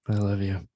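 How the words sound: It is said with dislike and contempt.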